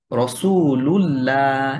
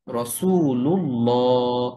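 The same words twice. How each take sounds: First: Slow "রসুলুল্লাহ" with a thin, light "llaa"; wrong thin lam. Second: Slow "রসুলুল্লাহ" with a dark, rounded "llaw"; heavy lam. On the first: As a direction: draw out "রসুলুল্লাহ" wrongly, with a light final "laa". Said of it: "এরকম বললে এটা ভুল উচ্চারণ". ("রসুলুল্লাহ"-এর লাম ভুলভাবে পাতলা করে, টেনে) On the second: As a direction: draw out "রসুলুল্লাহ" with a full, heavy final syllable. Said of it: "মোটা করে উচ্চারণ". ("রসুলুল্লাহ"-এর লাম মোটা করে, টেনে) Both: Shown as a demonstration.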